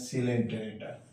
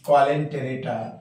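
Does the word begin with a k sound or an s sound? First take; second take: s sound; k sound. First: The word begins with an s sound. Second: The word begins with a k sound. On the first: This is how the word is pronounced. "ओ silent है, पढ़ते हैं सिलेंटेरेटा" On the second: This is how the word is written. "In fact लिखते हैं हम क्वालेंटेरेटा"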